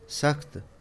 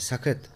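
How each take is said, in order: First: The final consonants are joined without a vowel. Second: An extra vowel separates the final consonants. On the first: The speaker calls it right. "सही तलफ़्फ़ुज़ है" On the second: The speaker calls it wrong. "ये तलफ़्फ़ुज़ गलत है"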